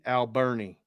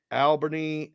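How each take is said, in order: First: Alberni said al-BER-nee with the R; corrected name. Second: Albany said as plain AL-buh-nee, no R; first guess at the town name, Albany; wrong name try. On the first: Host correcting himself, says Alberni. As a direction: settles on Alberni, stress on BER. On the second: Host unsure of the town name, says Albany. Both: Shown as a demonstration. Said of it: "I'm gonna say Alberni".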